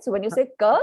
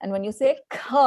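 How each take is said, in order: First: Ka with almost no breath; unaspirated ka. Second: Kha with a strong puff of breath; aspirated kha. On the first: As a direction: keep the breath small on ka. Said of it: "very little bit of an expulsion". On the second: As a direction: push a burst of air after kha. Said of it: "there is a forceful expulsion of air". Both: Shown as a demonstration.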